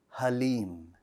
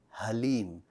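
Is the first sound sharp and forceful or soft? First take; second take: soft; soft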